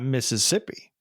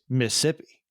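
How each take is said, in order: First: The word is said with four full syllables. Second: The word is said with three syllables, one dropped. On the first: This is how outsiders say the name. The speaker calls it wrong. "it's not Mississippi" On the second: This is how people born in the state say the name. The speaker calls it right. "It is M I S S I P P I"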